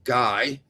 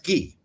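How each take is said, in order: First: The name is said with an American pronunciation. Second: The name is said with a French pronunciation. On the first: The speaker calls it wrong. "Americans will do that" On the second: The speaker calls it right. "Germans are smart enough to know that's Guy"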